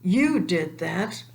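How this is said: It is said in an accusing tone.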